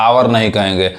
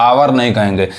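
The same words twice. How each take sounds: The two takes are said the same way.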